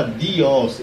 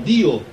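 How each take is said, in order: First: Dios with an added final S, "di-ÓS"; wrong Italian form. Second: Dio as DEE-o, no final S; Italian pronunciation. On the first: Teacher showing what Italians do not say, Dios with final S. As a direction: say Dios slowly, ending on OS. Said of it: "Mas ele não fala". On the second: Teacher showing what Italians really say, Dio without S. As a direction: say Dio stressed on DI, ending on an open vowel. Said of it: "ele fala Dio". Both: Shown as a demonstration.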